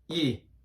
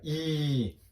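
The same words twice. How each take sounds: First: The vowel is held only briefly. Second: The vowel is drawn out for longer. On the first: "짧은 이" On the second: "얘는 길게 이 소리가 납니다"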